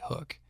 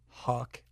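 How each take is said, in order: First: The vowel sounds like 'oo' in food. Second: The vowel sounds like 'uh' in cup. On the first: The speaker calls it right. "it's actually Hook" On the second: The speaker calls it wrong. "called it Huck when I met him the first time"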